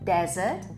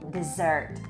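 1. Akcent jest na pierwszej sylabie. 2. Akcent jest na drugiej sylabie. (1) "wyraz pustynia akcentujemy na pierwszą sylabę" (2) "wyraz deser wymawiamy z akcentem na drugą sylabę"

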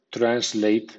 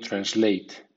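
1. La primera sílaba tiene acento fuerte. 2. La primera sílaba tiene acento medio. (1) "bien sea con acento fuerte" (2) "o con acento medio"

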